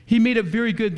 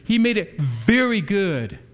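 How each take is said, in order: First: "He" pitched higher and louder, brisk pace; stress on He. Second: "very" leaned on, slow and a bit louder; stress on very. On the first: Preacher repeating the line, now stressing "He". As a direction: hit "He" in "He made it very good". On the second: Preacher translating the Hebrew, slow stress on "very". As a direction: linger on "very" in "He made it very good". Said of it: "as the Hebrew says". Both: Shown as a demonstration.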